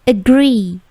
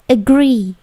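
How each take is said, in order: The two takes are said the same way.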